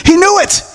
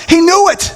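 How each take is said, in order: Both takes have the same delivery.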